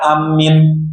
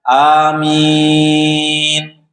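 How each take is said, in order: First: The m sound is doubled and pressed. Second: The second vowel is drawn out long. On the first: The speaker calls it wrong. "mimnya tasdid ditekan amin" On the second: The speaker calls it right. "Amin empat atau enam harokat"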